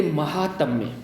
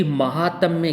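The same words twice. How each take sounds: First: महात्म्य opening on short ma; महात्म्य with short अ after म; wrong short first vowel. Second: महात्म्य opening on long maa; महात्म्य with long आ after म; correct long first vowel. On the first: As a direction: say महात्म्य as ma-haatmya. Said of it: "ये गलत है". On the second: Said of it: "शुद्ध है". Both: Shown as a demonstration.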